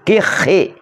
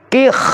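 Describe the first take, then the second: First: The word ends with an added short i vowel. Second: The word ends on a bare final consonant. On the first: "dibaca kasroh" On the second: "dapat dibaca sukun"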